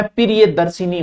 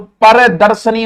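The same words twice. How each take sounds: First: प्रियदर्शिनी as pi-ri-ye-dar-si-nee; correct pronunciation. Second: Slow, loud परदर्शनी, pa-re-dar-sa-nee; correct pronunciation. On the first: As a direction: say प्रियदर्शिनी with i after sh. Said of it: "प्रियदर्शिनी होता है". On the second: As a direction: say परदर्शनी slowly, no i after sh. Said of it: "और परदर्शनी होता है". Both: Shown as a demonstration. Teacher contrasting two similar words, careful pronunciation.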